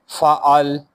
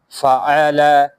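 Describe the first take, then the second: First: The word ends on the consonant 'l'. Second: The word ends with a short 'a' vowel. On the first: The reader stops on this word. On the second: The reader continues without stopping.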